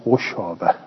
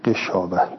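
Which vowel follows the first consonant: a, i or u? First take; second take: u; i. First: The first syllable has the vowel u. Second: The first syllable has the vowel i. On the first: This is a reading attributed to one reciter. "ذم الغین" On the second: This is the widely known reading. "به کسر الغین"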